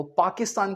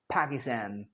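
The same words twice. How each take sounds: First: PAKISTAN as "paa-ki-staan"; British-Indian pronunciation. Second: PAKISTAN as "pæ-ki-stæn", low and soft; American pronunciation. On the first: Teacher quoting our version, "Paakistaan" पाकिस्तान. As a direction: say पाकिस्तान with open aa's. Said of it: "पाकिस्तान की बजाय". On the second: Teacher answering for Americans, soft "Pækistæn" पाकिस्तान. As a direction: say पाकिस्तान with cat-like a's. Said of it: "क्या बोल देंगे". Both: Shown as a demonstration.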